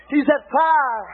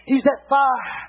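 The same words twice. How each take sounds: First: "He's that fire" drawn out slowly; slow emphatic repeat. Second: Said in the usual way. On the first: Shown as a demonstration. Preacher repeating to the church, slowly and deliberately. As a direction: stretch "He's that fire" word by word.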